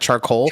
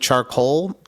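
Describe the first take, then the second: First: It is said with a plain English pronunciation. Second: It is said with a French-sounding pronunciation. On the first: The speaker calls it right. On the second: The speaker calls it wrong.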